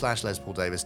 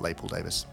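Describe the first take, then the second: First: Les is pronounced with a final z sound. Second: Les is pronounced like lay, without z. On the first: The speaker calls it right. "it's Les with a Z" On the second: The speaker calls it wrong. "It's not the French plural"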